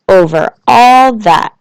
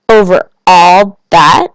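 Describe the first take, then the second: First: Slow, louder Over all that falling firmly; grand confirmation. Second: Slow, louder Over all that? rising; wondering question. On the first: King to the little prince, slow firm reply. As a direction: settle it with royal certainty. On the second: Little prince to king, slow awed question. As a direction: draw out the question in awe. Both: A narrator's reading.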